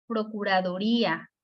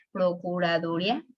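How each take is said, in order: First: "Procuraduría" with the í stressed and separate from a; stressed hiatus. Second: "procuraduría" mispronounced as "procuradúria", stress on du; wrong stress. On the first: Teacher showing the word needs an accent, í stressed in "Procuraduría". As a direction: lean on the í in "Procuraduría", falling at the end. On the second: Teacher trying the unaccented form, "procuraduría" said wrongly as procura-DU-ria. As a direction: let the í of "procuraduría" slide into a, rising questioningly. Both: Shown as a demonstration. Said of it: "tiene que ir acentuado".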